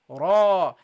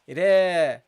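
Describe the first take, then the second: First: The r syllable is pronounced heavy and full. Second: The r syllable is pronounced light and thin. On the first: The speaker calls it right. "So you say here ra" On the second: The speaker calls it wrong. "the second pronunciation is a mistake. Why? Because I pronounced the ra lightly"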